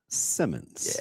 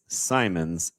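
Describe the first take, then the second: First: The first vowel sounds like in 'sit'. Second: The first vowel sounds like in 'sigh'. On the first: The speaker calls it wrong. "and not Simmons" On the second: The speaker calls it right. "Tell them it's Simons"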